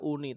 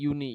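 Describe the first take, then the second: First: The word is pronounced the Indonesian way. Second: The word is pronounced the English way. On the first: "secara bahasa Indonesianya pengucapan kan U N I dibaca uni" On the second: "dalam pengucapan lafal bahasa Inggris itu uni"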